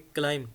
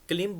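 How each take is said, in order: First: The vowel is a long 'eye' diphthong. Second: The vowel is a short 'i' sound. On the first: The speaker calls it right. "बी silent रह जाएगा, हम इसको बोलेंगे क्लाइम" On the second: The speaker calls it wrong. "ये वाला version गलत बोलते हैं लोग, क्लिम बोलते हैं"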